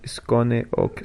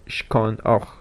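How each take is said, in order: First: It is said with an Italian-style foreign accent. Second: It is said with a standard German pronunciation. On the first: "Coppola pronuncia en alemán Skone ok" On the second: "por Skon och"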